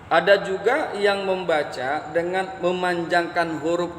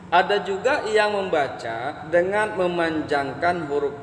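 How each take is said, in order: Both takes have the same delivery.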